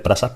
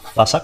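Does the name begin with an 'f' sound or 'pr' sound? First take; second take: pr; f. First: The name begins with a 'pr' sound. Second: The name begins with an 'f' sound. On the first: The speaker calls it wrong. "En mi grupo de amigos siempre diré Prasac" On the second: The speaker calls it right. "se pronuncia Fasac"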